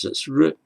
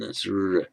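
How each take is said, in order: First: R said briefly, as one quick syllable; short R. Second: R held out longer. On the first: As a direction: keep the R short. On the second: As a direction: stretch the R into a sustained sound. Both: Shown as a demonstration. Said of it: "that's the difference".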